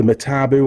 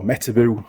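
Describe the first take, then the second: First: Metabu with the stress on the middle syllable, me-TA-bu; alternative pronunciation. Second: Metabu with the stress on the first syllable, MET-a-bu; preferred pronunciation. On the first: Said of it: "however you pronounce it". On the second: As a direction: say Metabu as MET-uh-boo, front-stressed and quick. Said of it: "I probably call it Metabu". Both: Shown as a demonstration.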